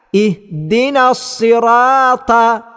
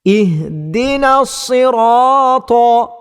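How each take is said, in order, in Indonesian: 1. Bunyi t itu ringan dan tipis. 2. Bunyi t itu berat dan tebal. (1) "maka dia boleh berlaku kesalahan yang nyata" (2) "bacaan yang betulnya ialah"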